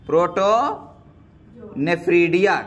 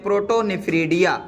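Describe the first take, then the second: First: protonephridia stretched out slowly, syllable by syllable; drawn out slowly. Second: Said in the usual way. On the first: Shown as a demonstration. Teacher drilling the term protonephridia for students, said slowly and drawn out. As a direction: spell out protonephridia slowly so the class can repeat it. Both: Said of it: "क्या नाम दे सकते हैं?".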